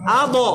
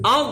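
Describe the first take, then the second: First: The final consonant is released with a bounce. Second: The final consonant is pressed and held. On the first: The speaker calls it wrong. "বাউন্স হবে না, আ ব এরকম না" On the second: The speaker calls it right. "চাপ দিয়ে ধরে রাখতে হবে"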